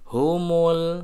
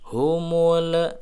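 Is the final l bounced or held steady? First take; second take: steady; bounced. First: The final l is held steady without bounce. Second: The final l is released with an echoing bounce. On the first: The speaker calls it right. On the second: The speaker calls it wrong. "tidak boleh begitu"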